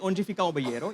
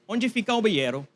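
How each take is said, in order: First: The pitch stays fairly flat throughout. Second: The pitch rises and falls in waves. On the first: The speaker calls it wrong. "You don't even say" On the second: The speaker calls it right. "You say ... It's like this. It's a wavelength"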